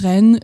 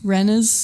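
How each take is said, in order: First: It is said with a French accent. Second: It is said with a British accent.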